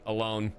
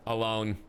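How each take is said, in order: Both takes have the same delivery.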